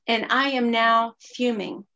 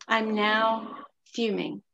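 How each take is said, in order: First: Said in the usual way. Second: Slow emphatic. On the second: Real, not acted. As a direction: repeat it slowly for weight.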